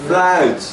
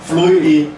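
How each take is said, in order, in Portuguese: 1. A vogal é um único som deslizante. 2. A vogal se divide em dois sons separados. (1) "o certo aqui é flout... não soa nem U nem I" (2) "Primeiro ele fala flui, flui i, flui i"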